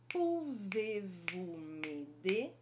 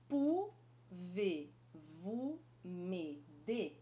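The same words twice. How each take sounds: First: It is said faster with a smoother rhythm. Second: It is said slowly, syllable by syllable.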